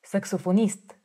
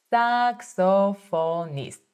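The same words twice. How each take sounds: First: Said in the usual way. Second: "Saxophonist" said slowly, syllable by syllable; slow it right down to teach it; careful slow model. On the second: Shown as a demonstration. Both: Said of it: "focusing on my pronunciation".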